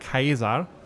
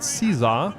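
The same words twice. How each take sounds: First: The word begins with a hard k sound. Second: The word begins with a soft s sound. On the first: This is how it was probably said in classical Latin. "in classic Latin that would probably be pronounced" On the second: This is the common modern way of saying it. "a lot of people say the word Caesar"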